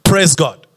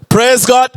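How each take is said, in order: First: Said in the usual way. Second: Raised, prompting praise call; rallying call. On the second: Real, not acted. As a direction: lift it up to draw a response. Repeats it to draw congregation response.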